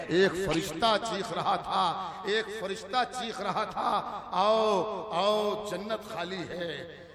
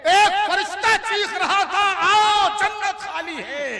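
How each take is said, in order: First: Slow, measured recitation; relaxed verse recital. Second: High, shouted declamation; forceful verse recital. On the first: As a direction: take the line at ease. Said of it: "किसी शेर को आराम से पढ़ूंगा". (आराम से, ठहर कर) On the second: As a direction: cry the verse out to the hall. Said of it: "किसी शेर पर जोर लगाऊंगा". (ज़ोर से पुकारते हुए) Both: Acted.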